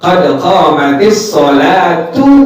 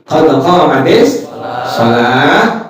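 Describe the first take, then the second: First: The last word ends on a full u vowel. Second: The last word ends on a stopped h sound. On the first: The reciter joins the phrase to what follows. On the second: The reciter pauses at the end of the phrase. "Yang pertama cara di wakaf"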